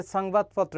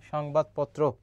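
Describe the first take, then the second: First: "সংবাদপত্র" with a hissed English s, sangbad; wrong s sound. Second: "সংবাদপত্র" begun with sh, shongbad-potro; correct sh sound. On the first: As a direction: start "সংবাদপত্র" on s instead of sh. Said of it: "আমরা কখনো বলি না". ("সংবাদপত্র"-এ দন্ত্য স-এর ভুল উচ্চারণ) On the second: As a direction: open "সংবাদপত্র" on sh instead of s. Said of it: "তালব্য শ হবে". ("সংবাদপত্র"-এ তালব্য শ-এর উচ্চারণ) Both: Shown as a demonstration.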